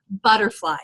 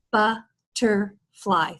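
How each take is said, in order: First: Said in the usual way. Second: "Butterfly" slowly split into three separate chunks; syllable by syllable. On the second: Shown as a demonstration. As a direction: pause after each syllable of "Butterfly". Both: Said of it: "Three syllables, three chunks of sound".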